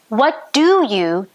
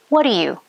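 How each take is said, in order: First: Each word is said separately and fully. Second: The words are blended into one reduced chunk.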